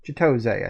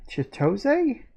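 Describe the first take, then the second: First: Chitose said with a falling, settled tune; settling on pronunciation. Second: Chitose? with a high questioning rise; unsure pronunciation. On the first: Reader deciding how a name in a note sounds, settled falling tone. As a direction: repeat Chitose as a tentative answer, pitch dropping. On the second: Reader stumbling on a name in a note, unsure, questioning. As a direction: try out Chitose? tentatively, pitch lifting up. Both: Real, not acted. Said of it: "I think that's how you pronounce that".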